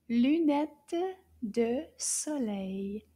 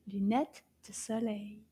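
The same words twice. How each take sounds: First: "Lunette de soleil" very slowly, word by word; "Lunette de soleil" drawn out with clear gaps; slow model pronunciation. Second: Said in the usual way. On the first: Shown as a demonstration. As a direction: stretch out "Lunette de soleil" for learners. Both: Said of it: "this one begins with the L sound".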